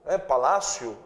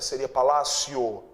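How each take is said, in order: First: The final vowel sounds like u. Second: The final vowel sounds like o. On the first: The speaker calls it wrong. "esse O não tem som de U?" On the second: The speaker calls it right. "A pronúncia correta não seria com som de U"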